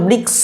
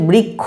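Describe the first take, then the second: First: The cluster is sounded as written, like ksha. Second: The cluster is sounded as a kh, like kkho. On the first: "উচ্চারণ হওয়া উচিত ছিল বৃক্ষ" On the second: "কিন্তু আমরা বলছি বৃক্ষ"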